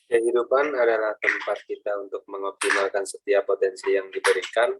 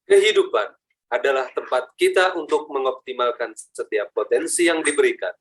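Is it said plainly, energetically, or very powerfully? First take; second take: plainly; very powerfully. First: It is said plainly, without extra power. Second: It is said with much stronger power.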